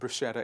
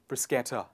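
First: The middle consonant is said as 'sh'. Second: The middle consonant is said as 'sk'. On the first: The speaker calls it wrong. "A lot of people pronounce it as bruschetta. It is not bruschetta" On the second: The speaker calls it right. "it is bruschetta"

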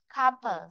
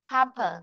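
First: The stress is on the first syllable. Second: The stress is on the first syllable.

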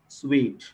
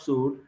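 First: The word sounds like 'sweet'. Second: The word sounds like 'suit'. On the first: The speaker calls it right. "it is suite" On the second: The speaker calls it wrong. "the pronunciation of that is not suite"

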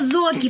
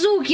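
First: The first vowel sounds like 'o'. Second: The first vowel sounds like 'oo'. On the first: The speaker calls it right. "это Зоки" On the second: The speaker calls it wrong. "Это не Зуки"

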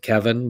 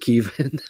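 First: The first vowel is short, like 'eh'. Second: The first vowel is long, like 'ee'. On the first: The speaker calls it wrong. "I just said Kevin" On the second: The speaker calls it right. "they do pronounce it Keevan"

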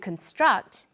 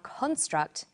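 First: The stress is on the second syllable. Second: The stress is on the first syllable. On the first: It is a verb. "to construct" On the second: It is a noun. "a construct"

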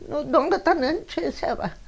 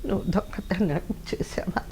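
First: The voice is plain, without a choked quaver. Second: The voice is choked and quavering with tears. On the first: The speaker calls it wrong. "Modulation తెలీదు. ఏడ్చేటప్పుడు గొంతులో గద్గద స్వరం రావాలి, అది రాలే" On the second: The speaker calls it right. "ఆ గొంతులో జీరా వచ్చింది మొత్తానికి"

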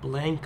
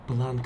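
First: The vowel is a front 'a' sound. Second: The vowel is an open 'ah' sound. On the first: "like a plan" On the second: "like a car"

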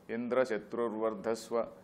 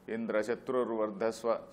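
Both takes have the same delivery.

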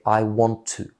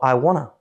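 First: Each word is said separately in full. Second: The words run together into a reduced form. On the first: "você vai aprender I want to" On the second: "na fala eu não falo assim, eu falo I wanna"

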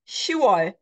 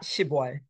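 First: The first syllable's final consonant is dropped. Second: The first syllable's final consonant is kept. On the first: The speaker calls it right. "You just drop the final consonants" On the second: The speaker calls it wrong. "not 10월"

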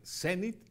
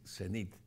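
First: The stress is on the last syllable. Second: The stress is on the first syllable. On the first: "la puede ser como medio aguda" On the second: "o grave"

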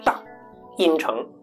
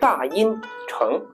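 First: A break follows the first syllable. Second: A break follows the second syllable. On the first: The speaker calls it wrong. "大音城你不能读成大音城，这就不对了" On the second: The speaker calls it right. "应该是大音城，所以它是断读节奏呢是二一"

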